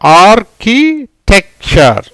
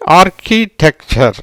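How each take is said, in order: First: "architecture" slowly broken into syllables. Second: "architecture" fairly slow, more connected; joined-up repeat. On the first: Teacher answers what word results, "architecture" in slow separate syllables. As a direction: build "architecture" piece by piece, pausing between parts. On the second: Teacher repeats after asking what it is, "architecture" slowly joined up. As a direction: repeat "architecture" carefully as one word. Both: Shown as a demonstration.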